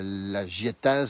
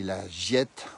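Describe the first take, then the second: First: The final -az ending is pronounced. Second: The final -az ending is silent. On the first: The speaker calls it wrong. "On dit pas" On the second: The speaker calls it right. "on dit"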